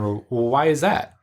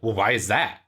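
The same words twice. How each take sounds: First: It sounds curious and open. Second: It sounds accusatory and judging.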